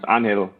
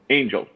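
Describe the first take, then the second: First: The name is said with Spanish sounds. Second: The name is said with English sounds. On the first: This is the student's real name. The speaker calls it right. "a student whose name is Angel" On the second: Others mispronounce the student's name. The speaker calls it wrong. "lots of people like will call"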